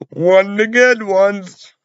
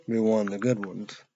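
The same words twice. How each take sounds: First: Higher, slower, louder on good ones; drawn-out, pointed "One of the good ones"; emphatic retake. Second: Said in the usual way. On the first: Shown as a demonstration. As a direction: lean hard into "good ones". Repeats phrase, then emphatic retake.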